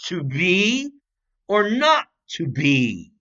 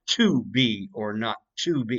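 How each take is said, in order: First: The line is said with key words emphasized. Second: The line is said flatly, without emphasized words. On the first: The line makes sense. The speaker calls it right. "there are words that must be emphasized" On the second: The line makes no sense. The speaker calls it wrong. "you can't say to be or not to be. It doesn't make any sense"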